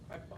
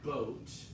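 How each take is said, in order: First: The vowel is an open aw sound. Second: The vowel is a rounded long O glide. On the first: "Big jaw, big mouth, right?" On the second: "I heard boat, long O sound"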